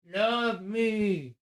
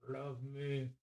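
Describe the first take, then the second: First: High crooning plea. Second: Soft plea. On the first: Owner crooning love me brightly at his dog. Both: Real, not acted.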